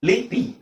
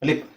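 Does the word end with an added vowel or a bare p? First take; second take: added vowel; bare p. First: The word ends with an added i vowel. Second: The word ends on a bare p sound. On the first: The speaker calls it wrong. "A B C D ಅಂತ ಓದಿದ್ರೆ ಇದು ಅದ್ರ ಪ್ರಕಾರ ಇದು ಲಿಪಿ ಆಗುತ್ತೆ" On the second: The speaker calls it right. "ಲಿಪ್ ಎಲ್ಲಿ ನಿಲ್ಸ್ತೀವಿ ನಾವು? ಪಿ ಇದು ಸೌಂಡ್"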